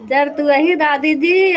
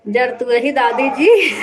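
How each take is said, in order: First: Slow teasing repeat. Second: Said in the usual way. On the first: Shown as a demonstration.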